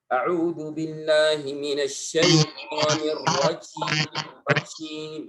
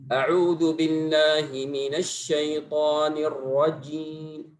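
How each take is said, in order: First: The final j is released with extra breath. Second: The final j is released without extra breath. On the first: The speaker calls it wrong. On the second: The speaker calls it right.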